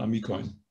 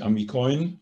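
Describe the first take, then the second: First: Amikoin stressed on the i, the next-to-last syllable; the correct way, stress on the i of Amikoin; right stress. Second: Amikoin stressed on the last syllable, oin; the wrong way, with the beat on the final oin. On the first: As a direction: Amikoin with the beat on the i before the end. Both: Shown as a demonstration. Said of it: "die Betonung bleibt auf dem I".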